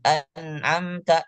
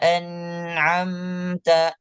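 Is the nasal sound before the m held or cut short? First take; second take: short; held. First: The nasal sound is cut short immediately. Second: The nasal sound is held for one beat. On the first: The speaker calls it wrong. "bukan an'amta langsung" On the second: The speaker calls it right. "ditahan dulu. Satu harokat"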